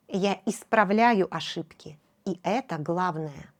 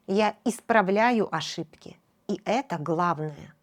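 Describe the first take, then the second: No difference in how they are said.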